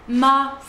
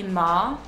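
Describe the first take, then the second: First: It is said with the tone meaning mother. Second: It is said with the tone meaning horse. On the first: The word means mother. "ça veut dire maman" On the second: The word means horse. "ça veut dire cheval"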